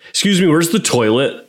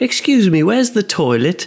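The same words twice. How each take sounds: First: It is said in an American accent. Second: It is said in a British accent.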